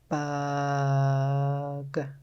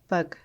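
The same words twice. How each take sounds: First: The word is stretched out slowly, sound by sound. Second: The word is said quickly as one whole. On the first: "Let's tap and stretch" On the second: "Now let's say it fast like a word"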